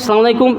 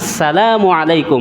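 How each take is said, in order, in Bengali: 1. সালামটি সরাসরি 'salam' দিয়ে শুরু হয়। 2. সালামটি 'salamu'-র আগে 'as' দিয়ে শুরু হয়। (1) "সালাম আলাইকুম সালাম আলাইকুম এগুলি না" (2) "সহি শুদ্ধভাবে বলতে হবে"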